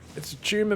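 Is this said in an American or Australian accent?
Australian. It is said in an Australian accent. The speaker calls it right. "mate. We're not crazy like you Americans"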